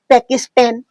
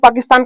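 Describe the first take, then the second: First: It is said in an American accent. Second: It is said in a plain Indian accent.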